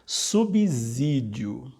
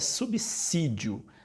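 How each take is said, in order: First: The consonant after 'sub' sounds like 'z'. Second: The consonant after 'sub' sounds like 's'. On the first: The speaker calls it wrong. "é muito comum as pessoas utilizarem e que é errado" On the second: The speaker calls it right. "a forma correta é subsídio. Tem som de dois S's"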